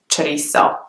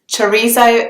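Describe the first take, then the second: First: It is said with Mexican Spanish, without th sound. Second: It is said with a British English pronunciation. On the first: "in Mexico ... they don't have the th sound" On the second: "the English pronunciation of the word"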